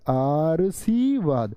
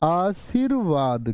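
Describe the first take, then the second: First: The r sound comes before the sh sound. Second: The r sound comes after the sh sound. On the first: The speaker calls it wrong. "यानी यहां तो ध्वनि क्या आएगी" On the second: The speaker calls it right. "ये आएगी जी ध्वनि यहां पर"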